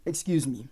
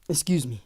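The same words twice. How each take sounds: First: Soft breathy whisper, a quick aside off mic; whispered excuse me. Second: Said in the usual way. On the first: Real, not acted. Streamer whispers an apology to his chat after a slip. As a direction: murmur it away from the chat.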